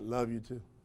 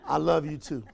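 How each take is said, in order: First: It is said quickly and flatly, offhand. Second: It is said slowly and warmly, with feeling. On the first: He does not really mean it. "His body, like his voice tonality told you everything about whether he meant it or not" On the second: He truly means it. "how many of you believe him then?"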